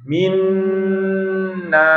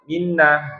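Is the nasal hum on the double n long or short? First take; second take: long; short. First: The nasal sound on the double n is held long. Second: The nasal sound on the double n is short. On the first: The speaker calls it right. "dibaca dengung yang lama" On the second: The speaker calls it wrong. "jangan minna. Ya, itu dengungnya sebentar"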